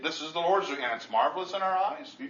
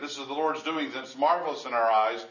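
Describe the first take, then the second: First: Questioning reading with final rise. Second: "This is the Lord's doing, and it's marvelous in our eyes" with falling statement tune; read as a statement. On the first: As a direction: ask it, tune climbing on "eyes". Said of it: "It's a question". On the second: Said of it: "that's oftentimes read as a statement". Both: Shown as a demonstration.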